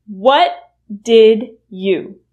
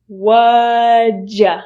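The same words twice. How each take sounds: First: Said in the usual way. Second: What'd ya said as whaja; reduced form. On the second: Shown as a demonstration. Teacher modelling the reduction whaja. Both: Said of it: "will reduce to".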